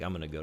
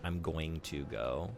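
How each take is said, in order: First: Going to is reduced to gonna. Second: Going to is fully and clearly enunciated. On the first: This is how Americans commonly say it. "you're gonna hear gonna a lot from Americans" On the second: This is rarely heard in everyday speech. "the perfectly enunciated"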